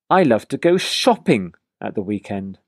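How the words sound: The word shopping carries the main stress. "now I'm going to stress the word shopping"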